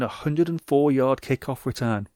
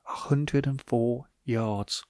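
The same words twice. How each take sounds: First: Said in the usual way. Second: Slow, hushed awe at "A hundred and four yards"; drawn-out quiet marvel at "A hundred and four yards"; slow and soft. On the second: Shown as a demonstration. Repeats stat slowly for effect.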